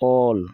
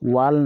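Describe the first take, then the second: First: The word begins directly with the vowel. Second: The word begins with a w sound. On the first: The speaker calls it right. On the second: The speaker calls it wrong.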